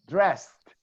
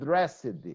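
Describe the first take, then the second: First: The ending is a plain T sound, drest. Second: The ending is an extra syllable, dress-ed. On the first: The speaker calls it right. "So I pronounce T" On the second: The speaker calls it wrong. "Not dressed"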